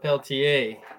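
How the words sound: The name is said with a French accent.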